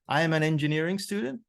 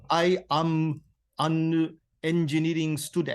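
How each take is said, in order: First: The words run together, linked smoothly. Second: Each word is said separately, without linking.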